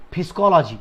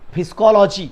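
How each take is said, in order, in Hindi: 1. यह शब्द स्पष्ट 'p' की आवाज़ से शुरू होता है। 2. यह शब्द स्पष्ट 'p' की आवाज़ से शुरू होता है।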